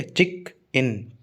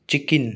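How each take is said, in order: First: "चिक इन" as two slow, separate beats; split into syllables. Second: Said in the usual way. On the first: Shown as a demonstration. Teacher counting sounds for students, "चिक इन" broken in two. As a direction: pause between "चिक" and "इन". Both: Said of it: "दो sound है ना".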